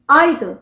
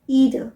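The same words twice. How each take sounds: First: It is said with a British pronunciation. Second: It is said with an American pronunciation.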